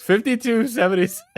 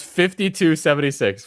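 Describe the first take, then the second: First: High, quick, astonished exclamation; incredulous repeat. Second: Said in the usual way. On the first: Real, not acted. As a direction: blurt the figure out in disbelief. Repeats the total in disbelief.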